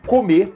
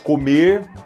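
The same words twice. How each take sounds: First: The final R sound is dropped. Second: The final R sound is pronounced. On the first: "Você suprime esse R" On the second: "você diz comer"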